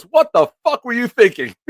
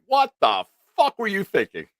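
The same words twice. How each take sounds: First: High, loud hammed-up yell; mock angry outburst. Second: High, loud mock outburst; imitated angry yell. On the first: [name] yelling at [name] for calling early, mock furious. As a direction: blow up at him, half laughing. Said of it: "into a big, like, "What the fuck were you thinking?". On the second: [name] retelling [name]'s big angry line, mock yell. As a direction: throw the line at him like a blown fuse. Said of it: "into a big, like".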